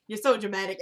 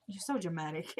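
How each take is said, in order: First: Said in the usual way. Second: Low, soft parting jab; retold low-key dig; dismissive aside. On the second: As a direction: toss it off quietly, pitched down.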